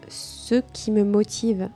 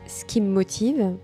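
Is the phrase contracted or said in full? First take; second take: full; contracted. First: Each sound is pronounced in full. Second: The words are shortened and run together.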